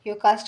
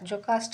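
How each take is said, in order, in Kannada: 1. ಈ ಹೆಸರು Y ಶಬ್ದದಿಂದ ಆರಂಭವಾಗುತ್ತದೆ. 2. ಈ ಹೆಸರು J ಶಬ್ದದಿಂದ ಆರಂಭವಾಗುತ್ತದೆ. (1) "ಯೋಕಾಸ್ಟ ಅಂತನಾದರೂ ಪ್ರೊನೌನ್ಸ್ ಮಾಡ್ಬೋದು" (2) "ಜೊಕಾಸ್ಟ ಅಂತನಾದರೂ ಪ್ರೊನೌನ್ಸ್ ಮಾಡ್ಬೋದು"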